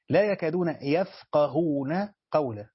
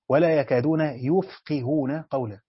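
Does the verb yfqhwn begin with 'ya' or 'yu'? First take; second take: ya; yu. First: The verb is read yafqahun, with a and a. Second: The verb is read yufqihun, with u and i. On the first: They themselves do not understand speech. "لا يكادون يفقهون قولا من الفعل الثلاثي" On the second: Others cannot understand their speech. "من الفعل ثلاثي مزيد بهمزة رباعي"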